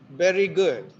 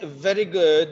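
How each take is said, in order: First: The word starts with a b sound. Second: The word starts with a v sound. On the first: The speaker calls it wrong. "there's a problem of v and wa, and they are pronounced as b" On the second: The speaker calls it right. "If you want to say very good"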